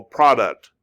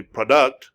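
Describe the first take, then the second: First: Product with the first syllable PRO stressed, short open o. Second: Product with the stress moved to DUCT, reduced first vowel; wrong stress pro-DUCT. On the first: Teacher giving the correct English stress, PRO-duct. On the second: Teacher showing learners the wrong stress, pro-DUCT. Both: Shown as a demonstration. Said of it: "You don't say product".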